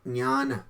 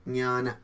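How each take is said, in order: Both takes have the same delivery.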